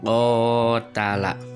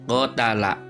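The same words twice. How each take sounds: First: The first vowel is drawn out long. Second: All the vowels are said short. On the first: "Ketika ko-nya ini mad, maka ko-nya ini panjang" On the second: "Ketika kita tidak ada mad, maka qotala itu pendek semua"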